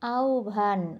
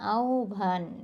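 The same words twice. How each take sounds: Both takes have the same delivery.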